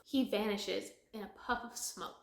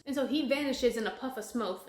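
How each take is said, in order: First: Said in the usual way. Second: "smoke" slipped into "smoth"; "smoke" mispronounced with a final th; slip of the tongue. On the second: Real, not acted. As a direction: end "smoke" on a th sound instead of k. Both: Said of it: "did I say smoke?".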